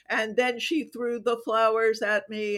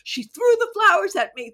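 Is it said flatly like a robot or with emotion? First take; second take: robot-like; emotional. First: It is said flatly, like a robot. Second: It is said with feeling and emotion.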